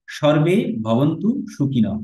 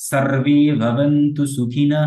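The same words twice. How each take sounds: First: সর্বে with a Bengali sh sound, slow; common wrong pronunciation. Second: সার্বে with a clear s and open a, slow; correct Sanskrit pronunciation. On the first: Teacher mimicking how students wrongly chant it. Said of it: "এইভাবে বলি আমরা". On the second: Teacher demonstrating the correct mantra, slow and clear. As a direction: chant সার্বে ভবন্তু সুখিনঃ carefully. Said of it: "তাহলে বলতে হবে সার্বে". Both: Shown as a demonstration.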